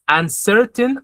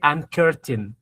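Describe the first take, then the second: First: The second syllable starts with an s sound. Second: The second syllable starts with a k sound. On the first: The speaker calls it right. "the C is always going to be pronounced like the letter S" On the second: The speaker calls it wrong. "That's why you didn't say uncurtain"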